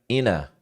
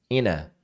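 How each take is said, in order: The two takes are said the same way.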